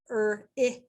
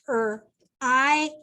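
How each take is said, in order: First: The vowel is a short i sound. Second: The vowel is a long i sound. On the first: The speaker calls it wrong. "I might try it with the short I sound first" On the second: The speaker calls it right. "the I makes the long I sound"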